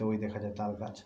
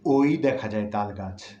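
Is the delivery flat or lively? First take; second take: flat; lively. First: It is read plainly, without expressive rhythm. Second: It is recited with lively, expressive rhythm. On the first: The speaker calls it wrong. "শুধুমাত্র আপনাদেরকে পাঠ করে শোনালাম" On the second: The speaker calls it right. "আবৃত্তির সুরে আমি বলি"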